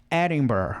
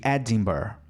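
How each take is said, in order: First: Edinburgh with the D as a quick tap, "eh-ren-be"; flapped D. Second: Edinburgh with a clear stopped D, "eh-din-ber"; full D. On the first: Teacher contrasting flapped and plain D. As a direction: tap the D in Edinburgh instead of a full stop. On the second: Teacher giving the plain D version. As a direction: land a full hard D in Edinburgh. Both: Shown as a demonstration. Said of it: "ao invés de Edinburgh".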